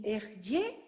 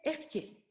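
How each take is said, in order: First: Said in the usual way. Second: "Ehyeh" said softly as eh-YEH, the Hebrew way; Hebrew pronunciation. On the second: Shown as a demonstration. Teacher showing the class the Hebrew word "Ehyeh", softly. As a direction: give "Ehyeh" its Hebrew sound, quietly. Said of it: "en hebreo se dice".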